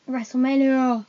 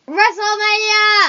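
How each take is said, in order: First: The word is said plainly, without extra energy. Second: The word is said with more force and energy.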